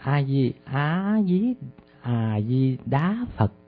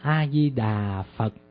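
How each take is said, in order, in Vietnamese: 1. Âm 'da' là thanh cao, đi lên. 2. Âm 'da' là thanh thấp, đi xuống. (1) "nó thành A-di-đá Phật" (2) "chứ không phải đà Phật"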